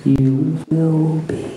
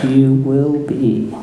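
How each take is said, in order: First: Slow, stress on will; Yoda voice. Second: Slow, lower, stress on You; Yoda voice. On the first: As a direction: lean on will. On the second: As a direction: weigh each word, stress on You. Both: A narrator's reading. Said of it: "said Yoda".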